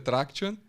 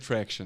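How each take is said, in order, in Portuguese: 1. A palavra é dita com pronúncia portuguesa. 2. A palavra é dita com pronúncia inglesa. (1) "No português é Traction" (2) "E no inglês é Traction"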